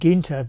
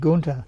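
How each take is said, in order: First: The first vowel is a fronted, ee-like sound. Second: The first vowel is a plain back oo-like sound. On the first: The name keeps its original German spelling with the umlaut. "you said it Ginter because here the two dots above the U" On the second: The name drops the umlaut. "get rid of the two eyes and be Gunter"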